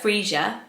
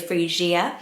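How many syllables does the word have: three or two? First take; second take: two; three. First: The word is said with two syllables. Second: The word is said with three syllables. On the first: "a two syllable like Freesia" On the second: "as a kind of treble"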